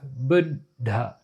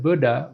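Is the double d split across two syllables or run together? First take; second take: split; run together. First: The d sound is split between two syllables. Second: The d sound is said once, not split. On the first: The speaker calls it right. "You want to divide the double consonant into two separate words" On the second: The speaker calls it wrong. "Instead of"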